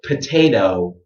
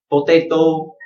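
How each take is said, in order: First: It is said with an English accent. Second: It is said with a Vietnamese accent.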